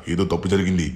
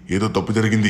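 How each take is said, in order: First: Said in the usual way. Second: Higher and louder, alarm rising; holy man crying out that something went wrong. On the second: Acted. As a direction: repeat it as a real alarm. Repeat, escalated alarm.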